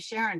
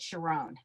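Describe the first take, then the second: First: The name has its usual English pronunciation. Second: The name has a Hebrew pronunciation. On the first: "the woman getting married was named Sharon" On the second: "the rabbi pronounced it Sharon"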